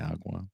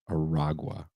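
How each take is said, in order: First: The name is said with two syllables. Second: The name is said with three syllables. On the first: The speaker calls it wrong. "I kept saying Tren de Agua" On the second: The speaker calls it right. "It's Aragua"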